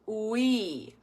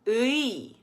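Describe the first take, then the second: First: It starts with rounded lips, like a w glide. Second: It is said with spread, unrounded lips throughout. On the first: The speaker calls it wrong. "So we don't want to go ui" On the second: The speaker calls it right. "use your tongue on the inside, and it will help if you smile"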